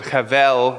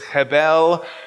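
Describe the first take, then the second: First: The middle consonant is a V sound. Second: The middle consonant is not a V sound. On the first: "sometimes people pronounce it chevel with a V" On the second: "but it's chebel"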